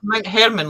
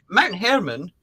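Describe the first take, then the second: First: "Hermon" said like "Herman" in Herman Munster, stress on HER; "Hermon" as HER-mun, the Munster way. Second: "Hermon" again as HER-mun, like Herman; "Hermon" stressed on HER, rhymes with Herman. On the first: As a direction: say "Mount Hermon" to rhyme with Herman. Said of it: "like Herman Munster". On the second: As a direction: keep "Mount Hermon" in the Herman Munster sound. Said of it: "I'm gonna call it Mount Hermon". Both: Shown as a demonstration.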